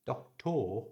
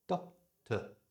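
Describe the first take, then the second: First: Doctor with a long, full TOR ending; full final vowel. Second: Doctor split, ending in a short weak tuh; schwa ending. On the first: Teacher showing the unreduced form, Doctor with full tor. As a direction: stretch the end of Doctor as tor. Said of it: "it's got that o, er sound". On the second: Teacher showing the schwa, doctor ending in tuh. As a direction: reduce the end of doctor to uh. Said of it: "just replace it with the schwa". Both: Shown as a demonstration.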